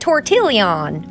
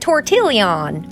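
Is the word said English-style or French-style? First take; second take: English-style; English-style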